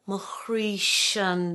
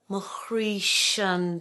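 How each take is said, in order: First: The two vowels run smoothly together. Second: The two vowels run smoothly together.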